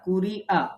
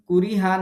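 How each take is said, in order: First: A glottal stop comes before the last vowel. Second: An h sound comes before the last vowel. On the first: The speaker calls it right. "হামজা জবর আ" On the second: The speaker calls it wrong. "না"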